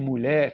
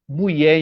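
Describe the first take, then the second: First: The word is said in the standard form. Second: The word is said in a popular variant form. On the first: This is the norm of the educated standard. "em vez de mulher" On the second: This is how the stigmatized speakers say it. "fala mulher em vez de"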